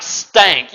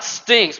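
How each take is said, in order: First: "stank" with a broad a in place of stink's i; "stank" punched and stretched out; emphatic dialect "stank". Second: Said in the usual way. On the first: Shown as a demonstration. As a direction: lean hard on "stank", drawing out the vowel. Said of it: "I mean, like, stank". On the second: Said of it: "not like stinks, but I mean, like, stank".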